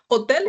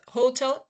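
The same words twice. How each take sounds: First: It is pronounced the Spanish way. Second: It is pronounced the English way. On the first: "hotel is in Spanish" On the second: "it will be the pronunciation in English"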